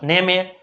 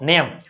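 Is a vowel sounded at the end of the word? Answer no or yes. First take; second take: yes; no. First: The word ends with an added vowel sound. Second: The word ends without a final vowel sound. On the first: The speaker calls it wrong. "આવું કોઈ વાંચ્યું ... અથવા નેમે" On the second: The speaker calls it right. "ઈ કાઢી નાખો ગણવાનું હોય જ નહીં ઉચ્ચારમાં લેવાનું ન હોય"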